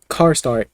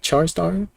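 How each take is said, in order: First: The first word begins with a k sound. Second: The first word begins with a ch sound. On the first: "I think car star is a valid pronunciation" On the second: "I like char star"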